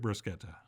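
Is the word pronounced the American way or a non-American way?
non-American. It is pronounced the non-American way.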